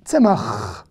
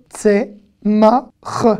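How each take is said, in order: First: Said in the usual way. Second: "Tsemach" broken into tse, ma, kh; slow "Tsemach", gaps before each sound; syllable by syllable. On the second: Shown as a demonstration. Teacher sounding out "Tsemach" for learners, syllable by syllable.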